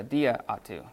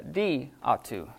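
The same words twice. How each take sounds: First: Said in the usual way. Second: "di atu" with the first alpha of "dia" left out; elided "di atu", vowel dropped before "atu". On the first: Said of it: "instead of a dia atu". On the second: Shown as a demonstration. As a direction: say "di atu" as two words, no "a" after "di". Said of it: "they usually drop the first alpha".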